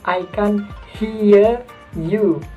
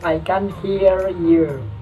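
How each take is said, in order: First: It is said with a British accent. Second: It is said with an American accent.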